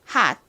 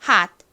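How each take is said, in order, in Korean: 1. 빠르게 말하면 마지막 t가 끊어지듯 터지지 않는 소리가 납니다. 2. 빠르게 말하면 마지막 t가 끊어지듯 터지지 않는 소리가 납니다.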